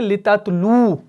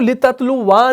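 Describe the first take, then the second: First: The word ends on a plain 'oo' sound. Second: The word ends with an added 'wa' syllable. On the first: The speaker calls it right. "बल्कि हम इसको वक्फ की सूरत में पढ़ते हैं लिततलु" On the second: The speaker calls it wrong. "हम इसको लिततलुवा नहीं पढ़ते हैं"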